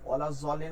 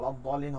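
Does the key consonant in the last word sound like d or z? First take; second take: z; d. First: The key consonant sounds like a z. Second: The key consonant sounds like a d. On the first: The speaker calls it wrong. "ওলা জলিন হবে না" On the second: The speaker calls it right. "ওলা দলিন হবে"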